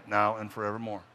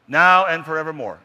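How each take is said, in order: First: Said in the usual way. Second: Louder, ringing proclamation; booming final vow; loud emphatic close. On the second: Shown as a demonstration. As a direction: ring out the ending. Loud creed ending.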